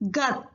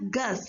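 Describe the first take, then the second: First: The word ends with a t sound. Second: The word ends with an s sound. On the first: The speaker calls it right. "So why we are pronouncing here it is as gut" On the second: The speaker calls it wrong. "We have to pronounce this one as gus"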